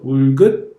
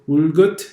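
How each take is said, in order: First: The final t sound is stopped without release. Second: The final t sound is popped open audibly. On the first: The speaker calls it right. "just stopping the air" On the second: The speaker calls it wrong. "you don't want to go"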